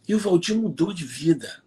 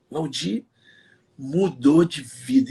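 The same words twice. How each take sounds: First: Said in the usual way. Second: Mudou de vida drawn out slowly, each word weighed; slow, deliberate mudou de vida; slow emphatic repeat. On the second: Shown as a demonstration.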